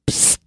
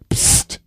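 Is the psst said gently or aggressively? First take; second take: gently; aggressively. First: It is said fairly gently. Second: It is said more forcefully and aggressively.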